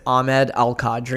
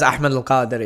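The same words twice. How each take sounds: First: The name has an Americanized English pronunciation. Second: The name has its native Arabic pronunciation. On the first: This is how people in America usually say it. "usually in America, it's Ahmed Al Qadri" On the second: This is how people in Dubai say it. "everyone just says Ahmed Al Qadri"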